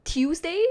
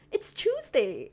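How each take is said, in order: First: "Tuesday" as "TYOOZ-day", high and loud question; others' pronunciation of Tuesday. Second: Firm "CHOOZ-day" for "Tuesday", falling tone; own way of saying Tuesday. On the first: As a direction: try "Tuesday" with a T, not ch, in disbelief. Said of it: "how do you guys say it". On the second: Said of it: "the way I say". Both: Shown as a demonstration.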